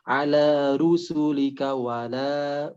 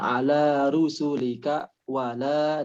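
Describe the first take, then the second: First: The phrase is said straight through without pausing. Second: The phrase is broken by a short pause. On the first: The speaker calls it right. "Tapi langsung" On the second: The speaker calls it wrong. "ada beberapa saktah yang bukan pada tempatnya ... itu tidak diperkenankan"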